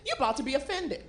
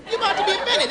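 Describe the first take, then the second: First: Said in the usual way. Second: Higher emphatic warning. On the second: Shown as a demonstration. Warning the audience about Swedes, higher and knowing. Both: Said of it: "repeated line".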